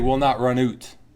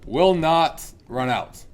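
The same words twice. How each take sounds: First: It is said in a Canadian accent. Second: It is said in a plain American accent.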